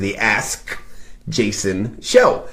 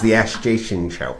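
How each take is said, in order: First: Each word is enunciated slowly and firmly. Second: The words are run together quickly. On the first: "I like enunciate it really firmly like that" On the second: "if I say it fast"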